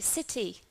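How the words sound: It has a British accent with a clear T. "this word in British English we would pronounce as city"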